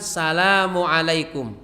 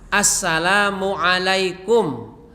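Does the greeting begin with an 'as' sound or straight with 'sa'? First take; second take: sa; as. First: It begins directly with 'sa' without 'as'. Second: It begins with 'as' before 'salam'. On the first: The speaker calls it wrong. "bukan salamualaikum" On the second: The speaker calls it right. "yang benar adalah assalamualaikum"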